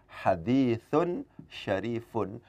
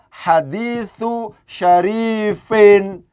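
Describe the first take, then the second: First: Both words end with the sound 'un'. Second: The first ends in 'u', the second in 'in'. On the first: The second word describes the first. The speaker calls it right. "ini bacaannya adalah hadithun syarifun, dengan menjadikan ini sebagai man'ut, ini sebagai na'at" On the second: The first word is possessed by the second. The speaker calls it wrong. "Tidak mungkin kemudian ini dibaca hadithu syarifin"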